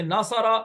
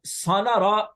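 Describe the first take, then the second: First: नासारा, opening on "naa", then "saa-raa"; correct letter order. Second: सानारा, opening on "saa" instead of "naa"; wrong letter order. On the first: Teacher giving students the proper form, correct letter order. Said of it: "यूं नहीं कहते, नासारा". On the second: Teacher showing students how not to say it, wrong letter order. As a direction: say सानारा with the sounds jumbled, "saa-naa-raa". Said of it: "यूं नहीं कहते". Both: Shown as a demonstration.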